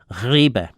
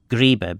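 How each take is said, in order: First: The word begins with a changed first sound. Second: The word keeps its original first sound.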